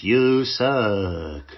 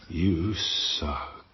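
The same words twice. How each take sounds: First: Louder, half-hearted chipmunk "You suck."; a badly faked chipmunk squeak on "You suck.". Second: Said in the usual way. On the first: Inner critic as a poor chipmunk, louder and half-hearted. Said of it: "that's probably the worst Alvin and the Chipmunks ever". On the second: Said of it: "and it goes".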